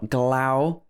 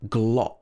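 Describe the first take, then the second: First: The vowel sounds like 'ow'. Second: The vowel sounds like 'o'. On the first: The speaker calls it wrong. "not Glau" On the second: The speaker calls it right. "but Glo"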